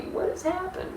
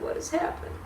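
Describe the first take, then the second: First: High, softer anguished question; bewildered cry. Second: A breathless whispered echo. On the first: Mary at the tomb, asking high and bewildered. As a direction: ask it high and lost. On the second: Mary at the tomb, whispering the question again. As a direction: drop it to a stunned whisper. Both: Acted.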